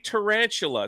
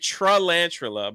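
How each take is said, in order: First: The word begins with a clear 'ta' sound. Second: The word begins with a 'tre' sound. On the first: The speaker calls it right. "I'm saying it correctly" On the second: The speaker calls it wrong. "I was saying it Trelantula, but it was like that was obviously incorrect"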